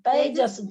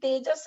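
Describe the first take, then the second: First: The first vowel is an ai sound. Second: The first vowel is a plain e sound. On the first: The speaker calls it right. "दो पाई है" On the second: The speaker calls it wrong. "तेजस नहीं"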